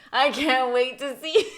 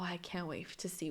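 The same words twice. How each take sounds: First: Loud, drawn-out gleeful repeat; mock eagerness. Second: Said in the usual way. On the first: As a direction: belt it out slowly, higher, hamming up excitement. Mocks own earlier eager thought.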